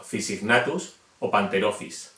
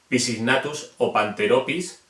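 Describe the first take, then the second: First: Panterophis with an F sound, slow and careful. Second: Panteropis with a hard P, P and H split; wrong P sound. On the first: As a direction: say Fisignatus starting with F, slowly. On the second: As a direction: say Pisignatus with a clear P, slowly. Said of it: "No sería". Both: Shown as a demonstration.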